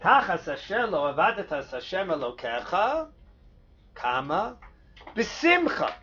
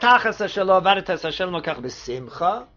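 First: It is said with a pause before b'simcha. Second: It is said without a pause before b'simcha.

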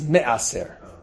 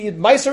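First: The word is said with a standard Hebrew pronunciation. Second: The word is said with a yeshivish pronunciation. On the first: The speaker calls it right. "This is me'aser" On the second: The speaker calls it wrong. "Now I just said meiser. I know, but that is yeshivish"

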